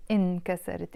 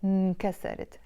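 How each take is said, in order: First: انكسرت with the full initial i sound, inkasarit; standard Arabic pronunciation. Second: انكسرت with the opening vowel dropped, nkasarit; Lebanese pronunciation. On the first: Teacher showing students the non-Lebanese form, انكسرت said in full. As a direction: say انكسرت the formal way, opening on the vowel. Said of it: "we will not pronounce it انكسرت in Lebanese". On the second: Teacher showing students the Lebanese form, clipped start. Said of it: "We will pronounce it". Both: Shown as a demonstration.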